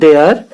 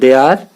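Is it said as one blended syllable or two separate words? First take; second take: one syllable; two words. First: It is said as one blended syllable. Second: It is said as two separate words. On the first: "इस प्रकार से भी हम इसको उच्चारण कर सकते हैं देयर" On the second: "इस प्रकार से भी हम इसको पढ़ सकते हैं दे आर"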